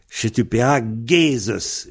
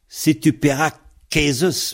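First: The linking consonant is a voiced G sound. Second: The linking consonant is a hard K sound. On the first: The speaker calls it right. "on va prononcer un G devant Zeus" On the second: The speaker calls it wrong. "Pour ne pas dire si tu paieras Kézus, parce que ça, c'est du pataquès"

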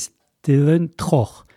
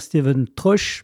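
First: The name ends in a guttural sound. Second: The name ends in a soft 'sh' sound. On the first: The speaker calls it right. "mais Steven Troch" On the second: The speaker calls it wrong. "on ne doit pas dire Steven Troche"

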